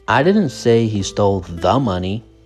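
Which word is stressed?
the. The stress is on the word 'the'. He took some other money. "The money, that means some specific money"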